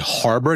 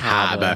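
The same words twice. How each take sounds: First: Harbor is said with a general American accent. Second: Harbor is said with a Boston accent. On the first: "you can't say Harbor" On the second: "you have to say Harbor"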